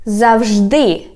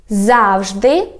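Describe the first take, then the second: First: "завжди" stressed on ДИ, then falling; stress on last syllable. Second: "Завжди" stressed on ЗАВ, ending on a rise; stress on first syllable. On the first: Teacher contrasting for learners, "завжди" stressed on ДИ. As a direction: hit the final syllable of "завжди". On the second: Teacher contrasting for learners, "Завжди" stressed on ЗАВ. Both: Shown as a demonstration. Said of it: "Can you hear the difference?".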